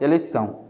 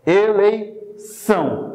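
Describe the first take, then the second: First: Said in the usual way. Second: "Eleição" very slow and higher, split before the last syllable; syllable-by-syllable demo. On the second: Shown as a demonstration. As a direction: stretch "Eleição" to show the S sound. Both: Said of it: "Não parece mesmo o som de".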